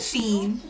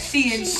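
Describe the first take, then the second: First: The name is said as one syllable, 'sheen'. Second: The name is said as two syllables, 'she-in'. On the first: The speaker calls it right. "I call it Sheen" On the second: The speaker calls it wrong. "That Shein shit, I don't like it"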